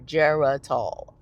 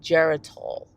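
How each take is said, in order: First: The word is said slowly and deliberately. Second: The word is said at a normal pace.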